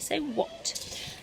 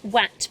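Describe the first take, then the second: First: The vowel sounds like the one in 'hot'. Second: The vowel sounds like the one in 'cat'. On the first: The speaker calls it right. "This is making an oh sound here" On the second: The speaker calls it wrong. "it looks like at, w, at, wat, but we don't say wat"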